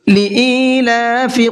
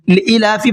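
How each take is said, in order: First: The vowel after the first syllable is held long. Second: The vowel after the first syllable is kept short. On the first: The speaker calls it right. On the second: The speaker calls it wrong.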